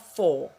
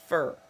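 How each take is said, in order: First: The word has a full, clear vowel. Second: The word has a weak, reduced vowel. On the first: The speaker calls it wrong. "Ce n'est pas for" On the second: The speaker calls it right. "c'est fur"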